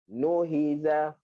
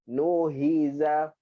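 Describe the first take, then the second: The two takes are said the same way.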